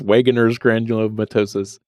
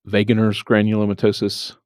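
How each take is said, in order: First: The name starts with a W sound. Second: The name starts with a V sound. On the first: "Maybe it's" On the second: "I said that like I know that you don't pronounce the W"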